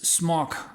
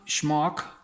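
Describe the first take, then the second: First: The word begins with a plain s sound. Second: The word begins with a sh sound. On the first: The speaker calls it right. "it's smock" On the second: The speaker calls it wrong. "it's not schmock"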